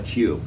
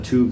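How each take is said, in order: First: It is said in a British accent. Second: It is said in an American accent. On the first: "they call a tube" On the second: "When we call a tube"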